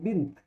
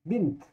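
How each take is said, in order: No difference in how they are said.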